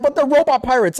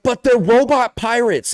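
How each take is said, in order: First: Higher pitched disbelieving protest; high mock-whiny disbelief; incredulous protest. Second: Slow, high, disbelieving whine; slow raised whine of disbelief; incredulous protest. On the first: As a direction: insist it's obvious, pitched up. Repeating the same retort. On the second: Retold or imitated. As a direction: protest it like it's obvious. Retorting to companion in game.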